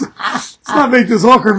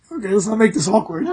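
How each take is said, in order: First: Slowed repeat. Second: Said in the usual way. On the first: Shown as a demonstration. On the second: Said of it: "He was like".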